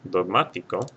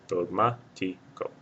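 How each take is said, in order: First: Said in the usual way. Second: Dogmático drawn out slowly, stressed on MÁ; syllable by syllable. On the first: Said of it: "it's the third or more syllable back". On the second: Shown as a demonstration. Teacher counting syllables back from the end, Dogmático slowly broken up. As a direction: break Dogmático into slow syllables, dog-MÁ-ti-co. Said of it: "or more syllable back".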